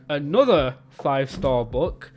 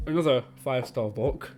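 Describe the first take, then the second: First: "Another five star book." drawn out slowly, stressing "Another"; slow teasing emphasis. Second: Said in the usual way. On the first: Shown as a demonstration. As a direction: lean on "Another" knowingly, slow. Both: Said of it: "Can you see where I'm going".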